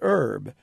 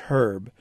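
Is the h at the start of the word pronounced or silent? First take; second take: silent; pronounced. First: The word starts without an h sound. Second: The word starts with an h sound. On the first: "which is dropping the H" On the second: "I sort of stick with H"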